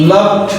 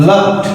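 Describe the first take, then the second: No difference in how they are said.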